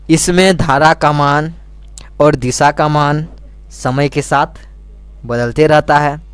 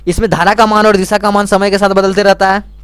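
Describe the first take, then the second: First: It is spoken slowly and deliberately. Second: It is spoken at a normal, quicker pace.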